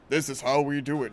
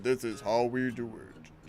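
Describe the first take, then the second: First: The voice is fairly normal in pitch and speed. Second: The voice is pushed low and slowed down.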